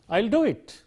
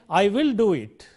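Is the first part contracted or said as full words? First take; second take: contracted; full words. First: It is collapsed into one contracted syllable. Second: It is said as two full words. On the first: It is an ordinary offer to do something. The speaker calls it right. "it's pronounced I'll" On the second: It will be done despite difficulty or lack of authority. The speaker calls it wrong. "We don't say"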